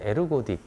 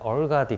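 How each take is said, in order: First: It is said with Korean-style syllables, 'e-reu-go-dik'. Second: It is said American-style, like 'er-gah-dik'. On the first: This is how professors in Korea said it. "한국 교수님들은 에르고딕 그렇게 표현을 했고" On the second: This is how people in America say it. "미국 가니까 뭐 발음하기가 되게 어려운데 얼가딕 그렇게 발음을 하고"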